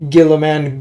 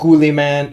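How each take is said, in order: First: The first vowel is a short 'ih' sound. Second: The first vowel is a long 'oo' sound.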